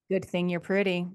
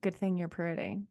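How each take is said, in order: First: It sounds cutting and resentful. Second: It sounds light and teasing. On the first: The speaker wants to say something worse. "you want to say something worse, but that's the only thing you feel like you can get away with" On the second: It is said in jest. "there's two different ways to say that"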